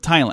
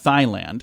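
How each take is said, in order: First: The word begins with a plain T sound. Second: The word begins with a breathy TH sound. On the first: The speaker calls it right. "I didn't think so" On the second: The speaker calls it wrong. "You don't pronounce the H, right? It's not Thailand"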